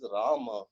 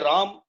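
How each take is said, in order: First: The name ends with a final vowel sound. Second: The name ends on a consonant with no vowel. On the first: The speaker calls it right. "it is Rama" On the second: The speaker calls it wrong. "that's not the right pronunciation"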